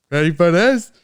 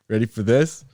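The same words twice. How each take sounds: First: Higher and louder ready for this; hyped up. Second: Said in the usual way. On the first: Shown as a demonstration. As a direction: build the hype for the reveal. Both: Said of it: "repeated louder".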